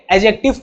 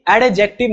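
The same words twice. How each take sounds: First: "एडजेक्टिव" as a-jective, without D; silent D. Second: "एडजेक्टिव" as ad-jective, D pronounced; wrong sounded D. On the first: Teacher giving the reading from today on, "एडजेक्टिव" with silent D. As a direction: skip the D in "एडजेक्टिव". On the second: Teacher saying what not to read, "एडजेक्टिव" with sounded D. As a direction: put an audible D in "एडजेक्टिव". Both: Shown as a demonstration. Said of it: "डी silent होता है".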